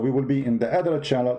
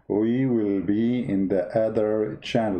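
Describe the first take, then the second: First: It is said at normal speed. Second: It is said slowly and drawn out.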